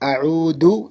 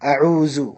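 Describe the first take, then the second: First: The middle consonant is a plain d sound. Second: The middle consonant is a buzzing z sound. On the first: It means I return or I visit the sick. "പലരും ദാലിനെ ദാൽ ആക്കി ഉച്ചരിക്കാറുണ്ട്, ... തെറ്റാണ്" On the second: It means I came to need something. "സെഡ് എന്ന അക്ഷരത്തിൻ്റെ സ്വരത്തിൽ ... അത് തെറ്റാണ്"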